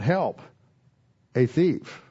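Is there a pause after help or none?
pause. There is a pause after help.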